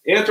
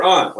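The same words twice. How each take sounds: First: "aunt" with the vowel of "cat"; aunt as "ant". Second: "aunt" with an open "ah" vowel; aunt as "ahnt". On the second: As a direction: say "aunt" to rhyme with "font". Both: Shown as a demonstration. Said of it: "Let's do that as a vote".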